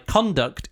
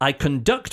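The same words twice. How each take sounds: First: The stress is on the first syllable. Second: The stress is on the second syllable. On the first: It is a noun meaning behaviour. "when it's a noun, it's at the start" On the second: It is a verb meaning to behave. "when it's a verb, the emphasis is at the end"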